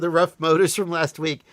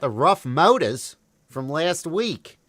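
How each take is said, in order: First: It is spoken in the speaker's own accent. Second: It is spoken in a put-on Australian accent. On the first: "I'll start again" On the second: "I was attempting to do an Australian accent"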